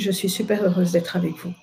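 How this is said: It sounds closed and held back.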